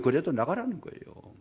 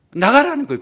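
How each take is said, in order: First: Said in the usual way. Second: 나가라는 cried out much higher and louder; preacher's emphatic peak on 나가라는. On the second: Shown as a demonstration. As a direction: shout 나가라는 from the pulpit.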